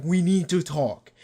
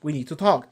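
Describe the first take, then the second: First: "We need to talk" slow, leaning hard on "need"; ominous "We NEED to talk"; slow ominous stress. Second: Said in the usual way. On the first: Retold or imitated. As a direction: draw it out and punch "need". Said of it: "everyone's like". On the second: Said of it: "They're all like".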